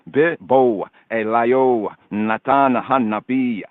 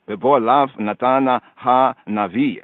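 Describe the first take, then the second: First: The last word is said with a B sound. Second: The last word is said with a V sound. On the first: This is the ancient reading. "ancient, archaic, Afro-Shemitic pointing" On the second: This is the modern reading. "Modern Hebrew"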